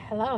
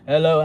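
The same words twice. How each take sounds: First: It is said in an ordinary, unlowered voice. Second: It is said in a deep, bassy voice.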